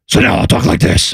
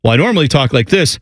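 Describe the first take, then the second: First: Rough, raspy mock Batman growl; disguised Batman voice. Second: Said in the usual way. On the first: Shown as a demonstration. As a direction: disguise your voice badly, like an amateur Batman. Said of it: "when it's time for him to disguise his voice". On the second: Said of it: "So what he does is just go, "Well, I normally talk like this".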